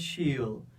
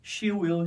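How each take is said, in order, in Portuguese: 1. 'Will' é encurtado e unido em uma única sílaba. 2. 'Will' é dito como uma palavra completa separada. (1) "você vai pronunciar uma só" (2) "ao invés de duas sílabas"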